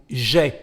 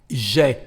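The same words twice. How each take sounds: Both takes have the same delivery.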